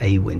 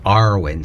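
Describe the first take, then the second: First: The word is said plainly, without a pirate-like growl. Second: The word is said with a pirate-like growl. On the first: This is a rare way to say it. "sometimes it's pronounced Awin, but very rarely" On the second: This is the more common way to say it. "it's more Arwen, so it's a bit more piratical"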